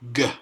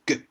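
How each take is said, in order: First: The sound is drawn out with a vowel. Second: The sound is short and sharp. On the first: The speaker calls it wrong. "a lot shorter and a lot sharper than people saying G" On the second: The speaker calls it right. "It's G"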